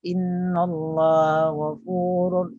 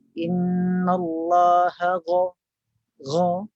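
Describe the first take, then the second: First: Slow chant, GH of GHAFURUR barely formed; indistinct ghin. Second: Slow chant, distinct HA then full back-of-tongue GH; correct clear ghin. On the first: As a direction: chant INNALLAHA GHAFURUR with a weak, passing GH. (sebutan ghin yang tidak jelas) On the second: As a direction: raise the tongue root for a clear GHA. (sebutan ghin jelas dari pangkal lidah) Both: Shown as a demonstration.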